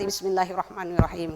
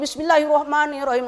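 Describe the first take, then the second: First: It is said quietly, almost silently. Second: It is said aloud, clearly audible.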